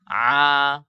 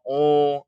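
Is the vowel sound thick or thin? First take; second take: thin; thick. First: The vowel is open and light. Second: The vowel is rounded and heavy. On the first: The speaker calls it right. "Harusnya a" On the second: The speaker calls it wrong. "itu tebal kalau oh"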